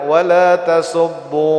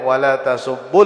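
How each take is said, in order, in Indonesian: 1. Vokal akhirnya panjang dan ditahan pada tempat berhenti. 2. Vokal akhirnya pendek dan langsung menyambung ke kata berikutnya. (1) "waqfan dan dibaca wala tasubbu sabitah wawnya" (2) "waslan pada ketika bersam bersambung itu bacanya"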